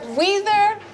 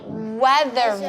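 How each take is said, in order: First: The first vowel is a long E sound. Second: The first vowel is a short E sound. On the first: The speaker calls it wrong. "That didn't sound right" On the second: The speaker calls it right. "I'm going to change that E to the short E"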